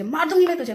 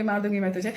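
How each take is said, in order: First: Higher, mock threatening voice; hammed-up threat, pitched up; imitated crude threat. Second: Said in the usual way. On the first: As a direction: mimic her lashing out crudely. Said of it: "ऐसे ही एकदम मतलब रेते वाला language". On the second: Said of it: "मुझे इतना हंसी आई ये बात सुन के".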